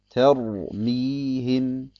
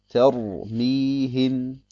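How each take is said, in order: The two takes are said the same way.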